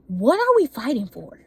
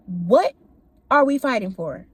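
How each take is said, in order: First: Said in the usual way. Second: "what" set apart, then a long pause; emphatic spaced-out question. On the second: Retold or imitated. Asking her in the heat of the argument, emphatic, broken-up question.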